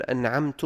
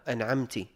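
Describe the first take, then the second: First: أنعمت said "an'amtu", ending in u; damma on ta. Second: أنعمت said "an'amti", ending in i; kasra on ta. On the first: Teacher giving an example of a mistake, أنعمت said "an'amtu". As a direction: put an u vowel on the end of أنعمت. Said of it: "بضم التاء". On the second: Teacher giving an example of a mistake, أنعمت said "an'amti". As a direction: put an i vowel on the end of أنعمت. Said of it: "أو بكسر التاء". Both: Shown as a demonstration.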